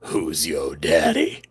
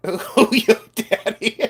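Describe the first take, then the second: First: Very low, slow daddy voice; mock-seductive deep voice. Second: High, slow and giggly; teasing high-pitched goof; playful catchphrase. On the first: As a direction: drawl it deep from the chest, softer. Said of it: "Do you want me to do it again?". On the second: Pretend. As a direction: draw it out high, breaking into laughter. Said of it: "I wanted to do in my".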